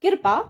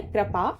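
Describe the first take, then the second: First: कृपा said as "kir-paa"; wrong "kirpa" form. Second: कृपा said as "kra-paa"; correct initial cluster. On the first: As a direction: put the i before the r in कृपा. (कृपा को "किरपा" बोलें) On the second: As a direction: join k and r at the start of कृपा. (कृपा में क और र मिलाकर) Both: Shown as a demonstration. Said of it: "कृपा गलत लिखा हुआ है".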